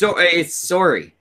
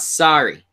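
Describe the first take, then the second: First: The first vowel sounds like 'or'. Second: The first vowel sounds like 'ah'. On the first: The speaker calls it right. "It's got an O-R sound, like no. Or" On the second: The speaker calls it wrong. "It's not sorry"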